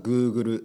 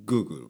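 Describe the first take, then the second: First: It is said with a Japanese pronunciation. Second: It is said with an English pronunciation. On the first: "日本語だとGoogle ですね" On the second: "英語だとGoogle かな"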